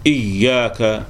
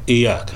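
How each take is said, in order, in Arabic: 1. صوت y مشدد ومُمَدّ. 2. صوت y مفرد وقصير.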